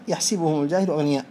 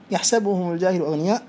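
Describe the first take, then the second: First: يحسبهم with a short i on the س, "yahsibuhum"; reading with kasra. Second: يحسبهم with a short a on the س, "yahsabuhum"; reading with fatha. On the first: Teacher quoting the second accepted reading, kasra on س. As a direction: quote it lower, saying يحسبهم as yahsibuhum. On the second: Teacher quoting the first accepted reading, fatha on س. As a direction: quote it lower, saying يحسبهم as yahsabuhum. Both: Shown as a demonstration. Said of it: "وقد قرئ بهما".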